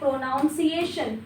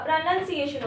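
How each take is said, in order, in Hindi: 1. दूसरा अक्षर 'noun' जैसा सुनाई देता है। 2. दूसरा अक्षर 'nun' जैसा सुनाई देता है। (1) "जो कि एक रॉन्ग प्रोनाउंसिएशन है" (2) "प्रोनाउन नहीं नन"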